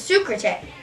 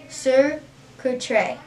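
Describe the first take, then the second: First: The word is said quickly. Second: The word is said at normal speed.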